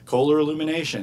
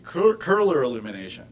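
First: The name Kohler is said the everyday way. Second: The name Kohler is said the original way. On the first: The speaker calls it wrong. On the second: The speaker calls it right.

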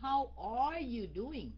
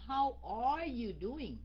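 First: The word 'are' is clearly pronounced. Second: The same.

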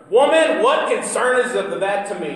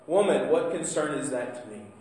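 First: It is said in a harsh, scolding tone. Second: It is said in a gentle, warm tone.

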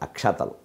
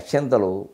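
First: The word has no n sound before t. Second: The word has an n sound before t. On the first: The speaker calls it right. "అక్కడ అక్షతలు" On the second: The speaker calls it wrong. "అక్షంతలు మాట పొరపాటు"

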